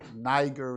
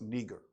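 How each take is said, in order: First: It is said with the English pronunciation. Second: It is said with the Latin pronunciation. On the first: The speaker calls it wrong. "that's how they pronounce it" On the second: The speaker calls it right. "In the Latin, it's pronounced Niger"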